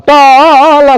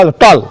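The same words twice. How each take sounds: First: टॉल stretched into a long taaa-aa-l; टॉल said very slowly as if it had many beats; wrongly drawn out. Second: Said in the usual way. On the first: Shown as a demonstration. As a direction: drag the vowel of टॉल out absurdly, higher. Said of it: "अब टॉल कहेंगे". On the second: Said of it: "कई बार में खा टॉल".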